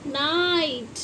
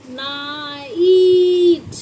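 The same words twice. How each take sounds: First: Said in the usual way. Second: नाइट drawn out, half sung and loud; sing-song demo word. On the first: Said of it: "ना कि नाइट". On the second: Shown as a demonstration. Teacher to pupils, sung drawn-out demo. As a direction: stretch नाइट into a singing long ai. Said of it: "क्या बोलते हैं इसको".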